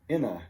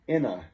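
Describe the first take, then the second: First: The n joins the next word as one unit. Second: The n joins the next word as one unit.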